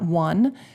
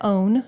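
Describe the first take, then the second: First: The suffix sounds like the number one. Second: The suffix rhymes with bone. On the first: The speaker calls it wrong. "not one" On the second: The speaker calls it right. "we pronounce that own"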